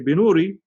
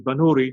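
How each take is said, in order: First: The first vowel sounds like 'i'. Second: The first vowel sounds like 'a'. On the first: The speaker calls it wrong. "Some people say Binuri" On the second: The speaker calls it right. "the more correct pronunciation is Banuri"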